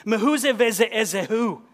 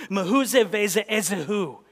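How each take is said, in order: First: "Mehuze veze ezehu" louder and higher, stressed like sudden fury; furious Hebrew. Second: "Mehuze veze ezehu" fired off like machine gun bursts; rapid Hebrew. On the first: Preacher voices the enraged king's Hebrew question at the dinner, raised and furious. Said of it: "the stress of the O sound ... expresses the sudden fury". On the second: Preacher shows the king's Hebrew words to the congregation, staccato like gunfire. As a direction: rattle off "Mehuze veze ezehu" in quick clipped syllables. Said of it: "sound like a machine gun fire when pronounced aloud".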